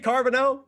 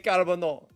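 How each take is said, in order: First: The name is said with an English pronunciation. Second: The name is said with a French pronunciation. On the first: "I can say it that way" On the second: "say it the French way"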